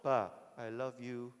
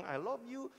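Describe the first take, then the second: First: Slow, low robot voice. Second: Said in the usual way. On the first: Pretend. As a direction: stretch "Ba, I love you" slowly like a machine. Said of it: "dia akan ada di hadapanmu". (suara robot lambat dan rendah) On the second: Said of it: "selalu bilang".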